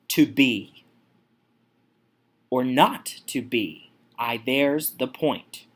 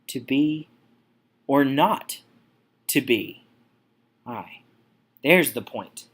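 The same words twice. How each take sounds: First: The first two words are both stressed. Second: Two syllables in a row are left unstressed. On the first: "we have the spondy here within the first two words" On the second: "Moving on to Pyrrhic"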